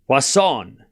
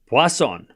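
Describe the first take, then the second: First: The middle consonant sounds like an S. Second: The middle consonant sounds like an S.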